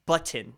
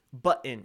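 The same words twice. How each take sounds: First: "button" with a deliberate T, but-tin; fully pronounced T. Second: "Button" with a swallowed T, bu'-n; Colorado pronunciation. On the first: Streamer forcing the unfamiliar way, "button" with crisp T. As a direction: carefully sound the T in "button". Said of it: "I gotta actually pronounce button". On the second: Streamer showing Colorado English, dropped-T "Button". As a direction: drop the T in "Button". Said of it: "I don't pronounce the T". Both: Shown as a demonstration.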